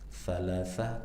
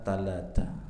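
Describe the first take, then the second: First: The word begins with a th sound. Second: The word begins with a t sound.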